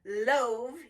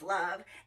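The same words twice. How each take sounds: First: The vowel is long, saying its letter name. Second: The vowel is short, not its letter name. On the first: The speaker calls it wrong. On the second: The speaker calls it right.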